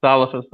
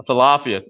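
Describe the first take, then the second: First: "Salafist" repeated with a full -ist ending, tentatively; trying the new pronunciation. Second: "Salafist" said as Salafi, dropping the final -st; Salafi pronunciation. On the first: Shown as a demonstration. After being corrected, repeating "Salafist" with the full ending. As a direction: echo "Salafist" with the final -st now said. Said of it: "how do you pronounce it".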